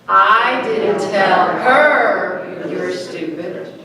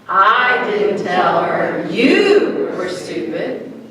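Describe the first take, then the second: First: The stress is on her. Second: The stress is on you.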